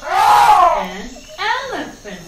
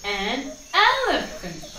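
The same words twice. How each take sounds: First: "An elephant" called out louder; loud, eager "An elephant"; loud repeat. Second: Teacher models "An elephant"; model pronunciation. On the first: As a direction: call "An elephant" out loud for kids to echo. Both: Shown as a demonstration. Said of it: "How do we say it?".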